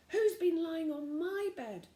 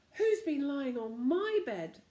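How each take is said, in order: First: Mother bear voice. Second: Slow, loud, growly demand; growly father bear. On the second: Father bear grumbling about his bed, slow and growly. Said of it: "in a growly voice". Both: A narrator's reading.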